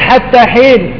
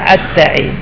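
First: The words are said with a ha sound. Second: The ha sound is replaced by ain. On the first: This is the standard pronunciation. "قل حتى حين ما يقول" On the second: This is how a dialect group that cannot say ha pronounces it. "لا يستطيع أبدا أن ينطق بالحاء، وإنما ينطقها إيش؟ عين"

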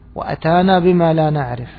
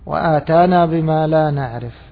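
First: The first vowel after the hamza is short. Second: The first vowel after the hamza is long. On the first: He came to us with what we do not know. The speaker calls it right. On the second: He gave us what we do not know. The speaker calls it wrong.

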